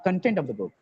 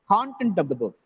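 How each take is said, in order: First: The stress is on the second syllable. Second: The stress is on the first syllable. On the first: The speaker calls it wrong. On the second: The speaker calls it right. "If it is a noun, first syllable is stressed"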